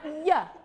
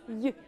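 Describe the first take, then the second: First: The sound is made with the mouth opening. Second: The sound is made with the mouth kept close. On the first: The speaker calls it wrong. "It's not Y. When you say Y and your mouth opens" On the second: The speaker calls it right. "Keep it close"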